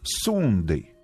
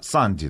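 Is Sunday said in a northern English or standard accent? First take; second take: northern; standard. First: It is said in a northern English accent. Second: It is said in a standard English accent. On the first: "А у них Сундей" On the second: "Санди, да?"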